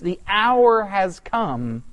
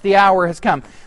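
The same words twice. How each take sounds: First: It sounds like a dawning realization. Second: It sounds resigned and reluctant.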